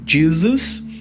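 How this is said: The name is said with English pronunciation. "pronunciado em inglês"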